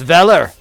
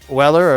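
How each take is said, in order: First: The name begins with a V sound. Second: The name begins with a W sound. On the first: The speaker calls it right. "And it's Veller" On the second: The speaker calls it wrong. "not Weller"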